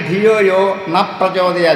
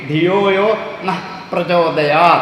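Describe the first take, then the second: First: The word 'na' ends without a breathy h. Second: The word 'na' ends with a breathy h. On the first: May our intellect not be inspired. The speaker calls it wrong. "അല്ലെങ്കിൽ ധിയോ യോ ന പ്രചോദയ" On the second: May it inspire our intellect. The speaker calls it right. "വിസർഗം ഉച്ചരിക്കണം"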